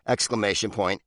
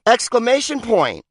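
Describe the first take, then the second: First: Said in the usual way. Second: "Exclamation point!" blurted higher and louder; exclaimed. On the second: Shown as a demonstration. Reading the punctuation list, the writer finally bursts out with an exclamation. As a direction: sell "Exclamation point!" as a big exclamation.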